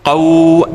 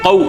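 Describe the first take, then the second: First: The vowel is drawn out and lengthened. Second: The vowel is short and said quickly. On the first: The speaker calls it wrong. "ऐसे नहीं पढ़ेंगे इसको" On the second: The speaker calls it right. "कौ एकदम पढ़ेंगे"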